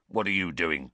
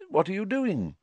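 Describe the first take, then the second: First: Surly, distrustful challenge; suspicious snarl. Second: High, friendly inquiry; lifted, unsuspicious greeting; unlike the snarl. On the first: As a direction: question them with narrow suspicion. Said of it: "Filch snarled suspiciously". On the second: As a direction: ask with mild, kindly curiosity. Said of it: "in a very different voice from Filch". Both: A narrator's reading.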